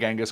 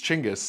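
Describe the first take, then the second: First: The name begins with a soft 'j' sound. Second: The name begins with a 'ch' sound. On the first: This is the common Western form of the name. The speaker calls it wrong. "we all say Genghis Khan, but it's like, no, no, no" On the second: This is the form used in Mongolia. The speaker calls it right. "it's really, it's Chinggis"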